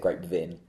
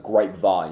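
First: The last syllable sounds like 'vin'. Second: The last syllable sounds like 'vine'. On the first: The speaker calls it wrong. "you don't say grapevine" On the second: The speaker calls it right. "if it's like a grapevine"

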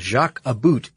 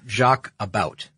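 First: The name is read in a Canadian way. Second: The name is read in an American way.

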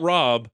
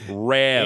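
First: The vowel is a standard rounded 'o' sound. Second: The vowel is a flat, fronted 'a' sound. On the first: "Not Rob" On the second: "she kept calling him Rab"

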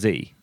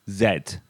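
First: It is said the American way, as zee. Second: It is said the British way, as zed.

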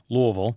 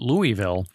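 First: It is mumbled with the vowels swallowed. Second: It is said with full, clearly shaped vowels.

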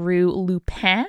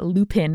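First: The name is said with a French accent. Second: The name is said with an English accent. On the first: "making a self-conscious gesture at a French accent like I am" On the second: "as you might pronounce it if you are not making a self-conscious gesture at a French accent"

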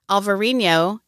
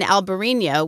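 First: The name is said with a V sound. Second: The name is said with a B sound. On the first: This is the Portuguese form of the name. "the Portuguese spelling and pronunciation with a V like Victor" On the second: This is the Spanish form of the name. "with a B like boy is the Spanish spelling and pronunciation"

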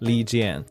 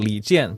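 First: The name is said in an English-style way. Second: The name is said with Mandarin tones. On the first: "it's also fine if you just call him" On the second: "proper Mandarin would be"

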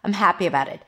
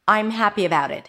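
First: "I'm" is shortened to a quick reduced sound. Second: "I'm" is said slowly with a full diphthong. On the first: "If it's really reduced, if I want to stress the word happy, that's how it's reduced" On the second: "I think that that's the stressed form. ... if you speak a little slower"

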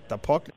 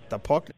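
Both takes have the same delivery.

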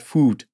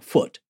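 First: The vowel sounds like the one in 'book'. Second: The vowel sounds like the one in 'but'. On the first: The speaker calls it wrong. "and not foot" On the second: The speaker calls it right. "foot is F-U-T, like foot"

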